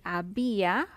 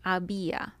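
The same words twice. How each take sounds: First: Había stressed on the í, a-BÍ-a. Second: Said in the usual way. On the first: Shown as a demonstration. Teacher stressing accented i in había. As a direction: lean on the í in había. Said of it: "because the I has an accent mark". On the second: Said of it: "it should be había".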